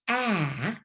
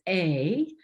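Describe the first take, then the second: First: The vowel sounds like the one in apple. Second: The vowel sounds like the one in ape. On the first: "like apple" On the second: "like ape"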